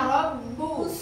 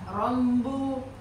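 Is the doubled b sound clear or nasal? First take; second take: clear; nasal. First: The doubled b is clear, without nasal sound. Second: The doubled b is nasal, like an m. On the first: The speaker calls it right. "Tapi harusnya robbu" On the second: The speaker calls it wrong. "banyak banget orang yang mengsuara hidungkan, sengau"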